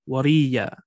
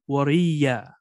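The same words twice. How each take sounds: Both takes have the same delivery.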